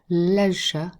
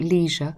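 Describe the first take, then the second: First: The word is said with a British pronunciation. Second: The word is said with an American pronunciation. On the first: The speaker calls it right. "So I would go leisure" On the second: The speaker calls it wrong. "I know leisure is slightly more American"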